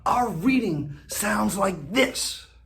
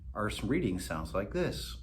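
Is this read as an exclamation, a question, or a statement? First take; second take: exclamation; statement. First: It is read as an excited, emphatic exclamation. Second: It is read as a flat statement, falling. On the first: "When we use an exclamation point" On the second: "When we use a period"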